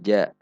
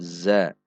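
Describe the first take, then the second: First: The first consonant sounds like j. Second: The first consonant is a buzzing z. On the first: The speaker calls it wrong. "bukan ja" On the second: The speaker calls it right. "namun za"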